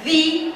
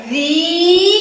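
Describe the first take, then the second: First: Said in the usual way. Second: ذي with the ee held long, raised and louder; loud, sustained ee in ذي; long vowel. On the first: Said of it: "ذال كسرة ذي". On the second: Shown as a demonstration. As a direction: stretch ذي out loud and high. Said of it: "فيها مد بالياء".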